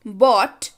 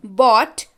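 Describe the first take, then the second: No difference in how they are said.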